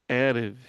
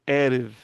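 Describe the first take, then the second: Both takes have the same delivery.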